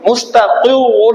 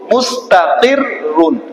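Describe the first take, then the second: First: The first r sound is heavy and full. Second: The first r sound is light and thin. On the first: The speaker calls it wrong. "এটা এভাবে পড়বো না" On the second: The speaker calls it right. "ফার্স্টের যে র হবে ... বারেক হবে"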